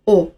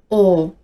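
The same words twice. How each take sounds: First: O cut short, without the length; short vowel. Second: O held long, as in "aw"; long vowel. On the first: Teacher removes the length mark, short o. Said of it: "变成短音". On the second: Teacher shows the first phoneme, long o. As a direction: draw the vowel o out. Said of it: "第一个音素是长音o". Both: Shown as a demonstration.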